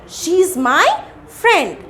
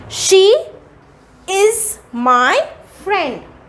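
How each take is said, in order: First: She and is merge into one syllable. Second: She and is are said as two words. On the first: "we read it as she's my friend" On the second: "First I am reading the question"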